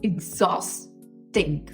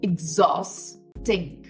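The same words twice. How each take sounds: First: It begins with an 'ig' sound then 'zaw'. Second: The same.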